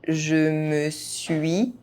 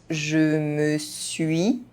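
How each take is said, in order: The two takes are said the same way.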